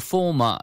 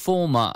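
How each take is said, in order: First: It is said with a British accent. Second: The same.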